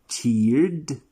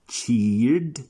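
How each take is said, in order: The two takes are said the same way.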